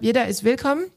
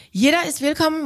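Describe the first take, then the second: First: Said in the usual way. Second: "Jeder" lifted much higher to stress it. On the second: Shown as a demonstration. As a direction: hit "Jeder" hard on the repeat.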